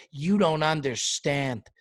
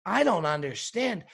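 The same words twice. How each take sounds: First: Slow mocking echo of the restaurant owner; Salt Bae. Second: "I don't understand" as a rising, indignant echo; indignant retort. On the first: Diner throwing the restaurant owner's line back, slow mock quote. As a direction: quote him back slowly, lightly imitated. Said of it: "Sir, you don't understand". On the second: Acted. Diner answering the restaurant owner, "I don't understand" as rising retort. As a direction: turn "I don't understand" back on him, voice rising at the end. Comedian retorts to the quoted line.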